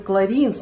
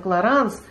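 First: The second vowel sounds like 'ee'. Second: The second vowel sounds like 'a'. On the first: This is the form used in Israel. The speaker calls it wrong. "я неправильно говорю «кларинс»" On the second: This is the form used in Russian. The speaker calls it right. "надо «кларанс»"

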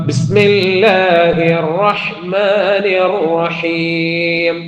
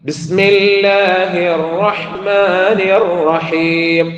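The two takes are said the same way.

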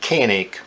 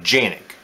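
First: The name begins with a hard K sound. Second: The name begins with a J sound. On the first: This is how English speakers say it. "we pronounce it Canik" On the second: This is how people in Turkey say it. "In Turkey, they pronounce it Janik"

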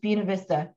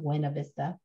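First: It uses the local Winston-Salem pronunciation. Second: It uses the standard, non-local pronunciation. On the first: The speaker calls it wrong. "it's Buena Vista if you live in Winston-Salem" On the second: The speaker calls it right. "and not Buena Vista"

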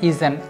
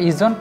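First: A short vowel is heard between z and nt. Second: No vowel is heard between z and nt. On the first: The speaker calls it right. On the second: The speaker calls it wrong. "এই উচ্চারণটা ইজন্ট নাম"

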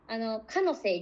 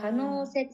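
First: The vowel in the middle syllable is short. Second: The vowel in the middle syllable is lengthened. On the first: The speaker calls it wrong. "可能性になってしまうので" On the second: The speaker calls it right. "可能性少し伸ばす感じです"

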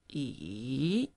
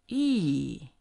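First: The pitch dips low and then rises. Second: The pitch drops sharply from high to low. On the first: "falling, rising" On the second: "the fourth one, falling"

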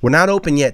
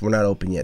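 First: It is said with a louder, raised voice. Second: It is said at a normal volume.

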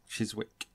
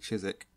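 First: Every written letter is sounded out. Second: Some written letters are left silent. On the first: "to spell Chiswick, it's like C-H-I-S-W-I-C-K" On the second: "But then we say Chiswick"

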